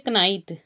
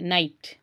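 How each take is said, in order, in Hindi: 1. शुरुआती 'k' की ध्वनि बोली जाती है। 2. शुरुआती 'k' की ध्वनि साइलेंट है। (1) "होता है ये कनाइट, लेकिन हम इसको नहीं पढ़ते" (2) "इसको पढ़ते हैं नाइट"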